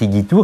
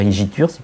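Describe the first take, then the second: First: It is pronounced with restored classical Latin sounds. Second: It is pronounced with traditional French sounds. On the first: "je prononce selon la prononciation restituée" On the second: "vous pouvez dire igitur"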